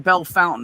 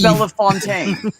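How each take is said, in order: First: The name is said like 'bell fountain'. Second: The name is said like 'belle fontaine'. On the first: This is how the locals say it. The speaker calls it wrong. "in Ohio they call it Bell Fountain" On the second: This is how it is written. The speaker calls it right. "That's not what this says here"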